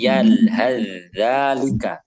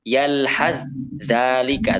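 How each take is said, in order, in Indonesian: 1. Bunyi th menyatu langsung ke dalam dh. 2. Bunyi th diucapkan terpisah sebelum dh. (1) "tapi yalhadzalika. Langsung masuk ke sana" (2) "jangan dibaca yalhadzalika"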